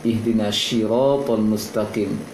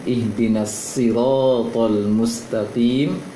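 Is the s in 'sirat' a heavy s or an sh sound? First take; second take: sh; heavy s. First: The s in sirat sounds like sh. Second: The s in sirat is a thick, heavy s. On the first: The speaker calls it wrong. "terbaca seperti shin tadi" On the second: The speaker calls it right.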